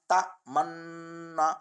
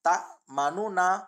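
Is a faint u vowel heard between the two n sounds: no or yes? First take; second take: no; yes. First: The double n is said with no vowel between. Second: A faint u vowel is heard between the n sounds. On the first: "इस्माम करे रहो है" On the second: "रोम चेता पढ़े जो तरीको"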